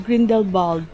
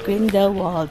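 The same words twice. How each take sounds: First: The name is said with the local pronunciation. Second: The name is said with an English pronunciation.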